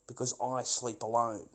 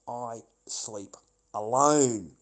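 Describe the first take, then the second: First: Said in the usual way. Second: I... sleep... ALONE, slow with a drawn-out, louder "alone"; slow, deliberate weight on "alone"; emphatic, spaced out. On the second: Real, not acted. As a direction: break it word by word and stretch "alone". Repeats the phrase for emphasis.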